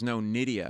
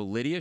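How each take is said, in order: First: "Nydia" with a firm N, correcting; corrected name. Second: "Lydia?" asked with an L, as a puzzled question; misheard name. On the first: Woman correcting the comedian's mishearing, a firm N. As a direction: stress the N in "Nydia", setting him straight. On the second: Comedian repeating the woman's name back wrong, with an L. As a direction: say "Lydia?" with a clear L sound, unsure. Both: Retold or imitated.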